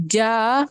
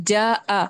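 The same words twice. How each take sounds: First: جا said short with no glottal catch; wrong, no hamza. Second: جا آ with a distinct break before آ; clear glottal stop. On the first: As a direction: clip جا without any stop. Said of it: "جا نہیں بولنا ہے". (جا ہمزہ کے بغیر) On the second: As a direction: split جا آ with a hamza catch. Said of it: "جا آ بولنا ہے". (جا آ واضح ہمزہ کے ساتھ) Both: Shown as a demonstration.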